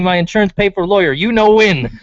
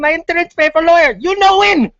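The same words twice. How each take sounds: First: It is read in a plain, normal reading voice. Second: It is yelled in an imitated, put-on accented voice.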